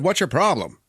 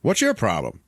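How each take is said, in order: First: Higher, more forceful retold demand; insistent challenge. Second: Mildly confrontational retold question; curt challenge. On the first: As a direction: repeat it like you were ignored. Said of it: "I said". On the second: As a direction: ask it as a first, milder challenge. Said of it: "And the guy's like".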